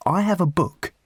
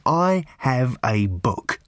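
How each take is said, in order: First: Higher-pitched announcement; announcing. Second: Very slow, deliberate delivery; emphatic repeat. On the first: Rob McKenna revealing his diary to Arthur, announcing it. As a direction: pitch it up like a revelation. First take before emphatic repeat. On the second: Rob McKenna insisting on his diary's importance, slow and emphatic. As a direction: spell it out word by word. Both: A narrator's reading.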